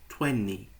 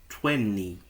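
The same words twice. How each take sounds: No difference in how they are said.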